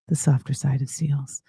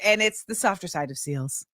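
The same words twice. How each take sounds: First: Much lower, playful put-on voice on the show name; deep mock voice. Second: Said in the usual way. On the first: Host repeats her show's name in a mock low voice. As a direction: drop low and savor the name like a slogan.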